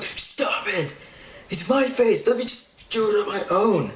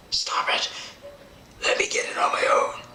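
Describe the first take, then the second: First: High-pitched mock pleading; whiny protest. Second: Unvoiced, hissed mock plea; strained whisper of a helpless patient; whispered protest. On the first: Patient begging the dentist to stop wiping, high whiny protest. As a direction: squeal it like a fed-up patient. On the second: Patient begging to wipe their own face, whispered protest.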